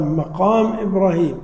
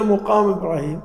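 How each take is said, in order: First: مقام said "maqām", with a after the mim; correct fatha reading. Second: مقام said "muqām", with u after the mim; rounded first vowel in مقام; wrong damma reading. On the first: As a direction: say "maqām Ibrāhīm", opening on "ma". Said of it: "نقول "مقام". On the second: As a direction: say "muqām Ibrāhīm", opening on "mu". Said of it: "لا، ما نقول". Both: Shown as a demonstration.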